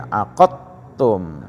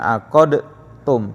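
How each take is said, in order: First: The d sound is merged into the t. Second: The d sound is released with a bounce. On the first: The speaker calls it right. "dia masuk ke ta ya" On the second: The speaker calls it wrong.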